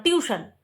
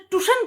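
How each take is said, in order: First: "টিউশন" with the full "tiu" glide; corrected pronunciation. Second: "টিউশন" echoed as "tushan", no i-glide; questioned mispronunciation. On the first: Vlogger corrects grandfather, "টিউশন" as tiu-shan. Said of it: "টিউশন কি আবার". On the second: Vlogger once challenged grandfather's "টিউশন", echoed as tushan. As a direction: query "টিউশন" said as tu-shan, pitched high. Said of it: "তখন আমি বলতো". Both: Retold or imitated.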